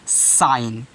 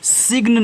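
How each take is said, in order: First: The g is silent; it sounds like sine. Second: The g sound is pronounced before the n. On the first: The speaker calls it right. "इस जी को नहीं पढ़ना है, सिर्फ आपको पढ़ना है साइन" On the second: The speaker calls it wrong. "इसको आप सिग्न नहीं पढ़ोगे"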